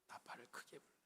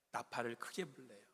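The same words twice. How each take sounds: First: Whispering 크게 as a playful contrast; joking whisper. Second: Said in the usual way. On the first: Shown as a demonstration. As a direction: ironic whispered trumpet call.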